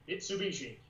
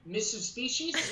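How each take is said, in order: First: The name is said as standard 'Mitsubishi'. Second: The name sounds like 'Missus Species'. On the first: This is how the commercial says it. The speaker calls it right. "like it's on the commercial" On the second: Someone else says it this way. The speaker calls it wrong. "she pronounces it every single time like Missus Species"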